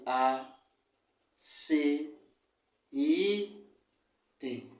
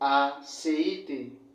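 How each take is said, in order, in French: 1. Le mot est prononcé lentement, voyelles étirées. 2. Le mot est prononcé à vitesse normale. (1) "si on prend le ralenti" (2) "On dit"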